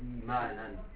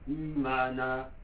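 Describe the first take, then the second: First: The word ends with an n sound. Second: The word ends on a plain vowel. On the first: The reading continues past this word. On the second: The reader stops on this word.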